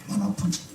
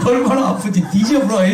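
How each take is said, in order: First: Said in the usual way. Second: Higher, laughing Jeolla dialect line. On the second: Retold or imitated. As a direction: laugh through it in Jeolla dialect, 얼마나 stretched out. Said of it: "경상도 말로 어떻게 해요?". (웃으며 전라도 사투리로)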